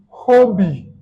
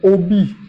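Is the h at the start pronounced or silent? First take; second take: pronounced; silent. First: The initial h is pronounced. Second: The initial h is silent. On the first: "Eux vont dire hobby" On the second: "Nous, on va dire hobby"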